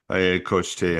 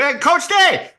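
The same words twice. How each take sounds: First: It is said with low, flat energy. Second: It is said with high, lively energy. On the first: "Very low" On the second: "very high energy"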